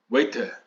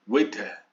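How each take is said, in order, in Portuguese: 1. É falada com sotaque britânico. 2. É falada com sotaque britânico.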